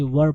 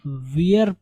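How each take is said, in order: First: 'वर' as one short syllable, no ee glide; correct pronunciation. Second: 'वियर' with an ee-er glide, like 'weir'; wrong pronunciation. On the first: Teacher giving students the right reading, plain short 'वर'. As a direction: say 'were' as 'वर'. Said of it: "वर पढ़ेंगे". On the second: Teacher warning students off a misreading, mispronounced 'वियर'. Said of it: "इसको आप वियर नहीं पढ़ेंगे". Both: Shown as a demonstration.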